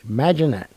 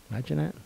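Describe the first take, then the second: First: "Imagine that" stressed on "Imagine", falling; falling affirmation. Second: Soft "Imagine that" with a rise on "that"; rising wonder. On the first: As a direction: land it firmly on "Imagine". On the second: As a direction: let "that" lift up like a question. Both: Real, not acted. Repeating phrase in wonder.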